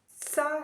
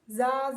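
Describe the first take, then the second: First: The syllable begins with an s sound. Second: The syllable begins with a z sound. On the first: "It also sounds s and z. I'm going both" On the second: "And also"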